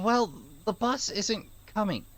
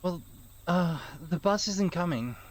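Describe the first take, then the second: First: It is said in a plain, ordinary voice. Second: It is said in a deep, tough hero voice.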